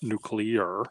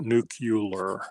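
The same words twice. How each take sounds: First: It is said with the usual 'new-klee-er' sounds. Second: It is said with an extra 'u' sound, 'new-kyu-ler'. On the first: The speaker calls it right. "not nuclear" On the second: The speaker calls it wrong. "but nuclear. Put the U right there"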